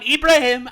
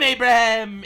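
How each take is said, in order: First: It begins with 'ee' and ends in 'heem'. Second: It begins with 'ay' and has a 'b' sound. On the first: "the Arabs, they call him Ibrahim" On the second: "In America, we call him Abraham"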